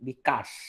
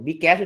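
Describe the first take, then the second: First: It is blended into one word, bikash. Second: The letter B and cash are said separately. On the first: This is how ordinary people actually said it. "মানুষ মুখে মুখে বলতেছে" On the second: This is the intended brand pronunciation. "বি ক্যাশ উচ্চারণ করা"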